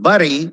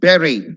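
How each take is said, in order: First: The word does not sound like berry. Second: The word sounds like berry. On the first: The speaker calls it wrong. "Next is not bury" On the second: The speaker calls it right. "Like you say B E R R Y"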